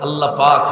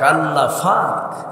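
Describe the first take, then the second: First: It is said with a standard 'p' sound. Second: It is said with a Noakhali 'f' sound.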